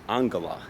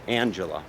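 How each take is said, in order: First: The name is said with its Hungarian pronunciation. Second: The name is said as an English reader would. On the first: The speaker calls it right. "the pronunciation in Hungarian is Angela, A N G, like Angela Merkel" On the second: The speaker calls it wrong. "if you were to look at her name written in English, you would think her name was Angela"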